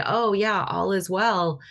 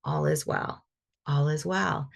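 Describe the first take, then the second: First: Empty, dismissive "all is well"; hollow reassurance. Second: Calm belief. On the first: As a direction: say it breezily but don't mean it. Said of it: "but I'm not feeling it". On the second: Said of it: "come with the energy of". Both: Shown as a demonstration.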